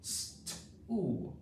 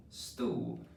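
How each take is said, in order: First: "St-oo" split into its sounds, the oo stretched; sounding out. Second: Said in the usual way. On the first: Shown as a demonstration. Teacher models sounding out a word for pupils, segmented. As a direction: sound out "St-oo" slowly, piece by piece. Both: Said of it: "three sounds in the word stool".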